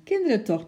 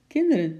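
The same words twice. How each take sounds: First: Higher, louder pleading call stressing kinderen; a bossy woman calling after fleeing kids; exasperated call. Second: Put-on loud brisk call to the children; a no-nonsense woman's loud call; firm call. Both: A narrator's reading. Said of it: "riep een kordate vrouwenstem".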